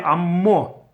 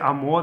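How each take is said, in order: First: The m sound is long and doubled. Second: The m sound is short and single. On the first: The speaker calls it right. "It's a clear mem with a dagesh, double mem" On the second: The speaker calls it wrong. "They don't say Amo"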